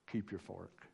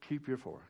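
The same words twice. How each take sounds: First: Soft, confiding aside, much softer; leaning-over murmur. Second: Said in the usual way. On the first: Retold or imitated. Church friend leaning over at potluck, soft confiding murmur. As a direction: lean in and murmur it like a tablemate.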